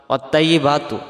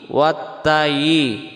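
First: ওয়াত্তাইয়িবাতু spoken with a light ত instead of ত্ব; ওয়াত্তাইয়িবাতু said plainly, the ত thin; wrong pronunciation. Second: ওয়াত্তায়ি chanted slowly with the heavy ত; correct pronunciation. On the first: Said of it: "ওয়াত্তাইয়িবাতু যদি আমরা পড়ি, ... তা অক্ষর হয়ে যাবে". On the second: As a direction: draw out ওয়াত্তায়ি with a full, heavy ত. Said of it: "এই ত অক্ষরটা তখন তাইয়ের উচ্চারণ আসতেছে". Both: Shown as a demonstration.

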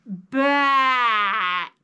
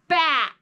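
First: Bat stretched out slowly, each sound drawn long. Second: Said in the usual way. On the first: Shown as a demonstration. Teacher to kids, slowly stretching out Bat. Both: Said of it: "Let's say it slow".

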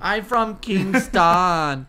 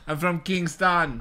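First: Very slow Jamaican drawl; mock Jamaican accent. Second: Jamaican accent. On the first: Friend copying the host, very slow mock Jamaican accent. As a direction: drag out "I'm from Kingston" in a Jamaican accent. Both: Shown as a demonstration. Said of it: "That's my Jamaican accent".

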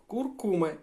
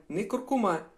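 First: Куркума with stress on кур-, second syllable; Куркума, the corrected stress. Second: Куркума with stress on the last syllable, -ма; не куркума, the stress to avoid; wrong stress shown. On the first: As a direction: say Куркума, leaning on the middle syllable. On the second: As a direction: contrast it: куркума stressed at the end. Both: Shown as a demonstration. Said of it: "наголос на в-, на вторий слог".

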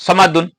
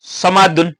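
First: সমাদুন read quickly as one run-together word; quick joined reading. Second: Said in the usual way. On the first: Shown as a demonstration. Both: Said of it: "তাড়াতাড়ি দিতে হবে".

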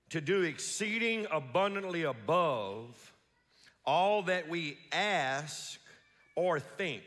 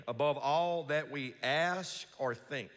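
First: Said in the usual way. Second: Slow, leaning on "ask" and "think"; emphasis on ask and think. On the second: Shown as a demonstration. Pastor showing the congregation what to underline, stress on "ask" and "think". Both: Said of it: "emphasize the words ask and think".

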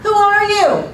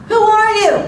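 First: High, loud call returning as an echo; echoed yell. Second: High, loud acted call; confused yell. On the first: Acted. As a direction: copy the boy's yell back as the mountain. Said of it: "A voice came back". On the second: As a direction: yell it out like a puzzled boy. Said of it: "looked confused and yelled".

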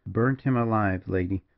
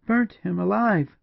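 First: Understated, even reply; matter-of-fact, unmoved; coolly. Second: Slow, high cry of disbelief; high, shocked woman's exclaim; horrified exclamation. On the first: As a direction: say it coolly, dropping on the last word. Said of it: "said the partisan coolly". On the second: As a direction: echo it aghast, pitch leaping up. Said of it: "exclaimed Julia". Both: A narrator's reading.

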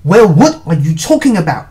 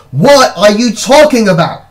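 First: Louder, exasperated question; hissed demand. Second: Loud, high exasperated yell; screamed demand. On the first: Brother presses secretive sister, hissed demand. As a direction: demand it with a touch of hiss. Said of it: "I hissed". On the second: Brother on a chair explodes at sister, screaming. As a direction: yell it at the end of patience. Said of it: "climbed onto my chair and screamed". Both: A narrator's reading.

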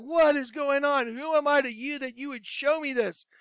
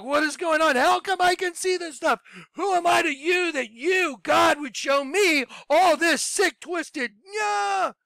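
First: High-pitched bewildered pleading to God, held back; distraught question. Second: Much higher, shouting up at the ceiling; freaking out. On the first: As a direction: ask the heavens, shaken but not yet screaming. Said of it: "I was like". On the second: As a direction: scream at God in a full meltdown. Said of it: "I freaked out. I had a meltdown". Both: Retold or imitated.

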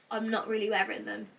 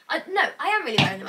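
First: Said in the usual way. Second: "am" punched hard and louder, fast self-correction; stress on AM. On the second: Real, not acted. Correcting herself about her tracksuits, loud stress on "am". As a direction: hit "am" loud as you correct yourself. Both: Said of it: "I don't know why I just said that".

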